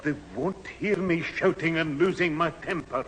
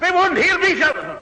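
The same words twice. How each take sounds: First: Abruptly quiet after the yell; sudden hush. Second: Furious full-voice shout; loud shout. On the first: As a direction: drop to a much softer, hushed voice. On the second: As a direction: bellow it out, much higher and louder. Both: Acted.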